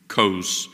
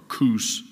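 First: The vowel is a long o sound. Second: The vowel is an oo sound. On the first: The speaker calls it right. "you use the long O there" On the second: The speaker calls it wrong. "instead of Kush or Kus"

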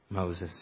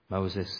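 Both takes have the same delivery.

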